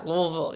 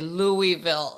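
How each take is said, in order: First: The name is mumbled without opening the mouth. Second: The name is said clearly with the mouth open. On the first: The speaker calls it right. "you got to say it the right way" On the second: The speaker calls it wrong. "don't say Louisville"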